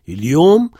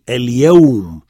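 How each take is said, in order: First: The middle vowel is a plain long u. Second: The middle vowel is an aw diphthong. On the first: This is the colloquial dialect form. The speaker calls it wrong. "ça c'est une prononciation à la dialectale" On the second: This is the standard form. The speaker calls it right. "pour réaliser la diphtongue ici"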